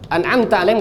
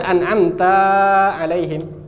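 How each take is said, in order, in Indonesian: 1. Vokal setelah 'ta' pendek. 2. Vokal setelah 'ta' dibaca panjang. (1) "enggak ada alif setelah ta" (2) "Ini menambah huruf. ... ini salah"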